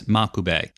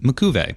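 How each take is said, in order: First: The stress is on the first syllable. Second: The stress is on the second syllable. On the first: "with the emphasis on the ma part of the name" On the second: "with the emphasis on the ku part of the name"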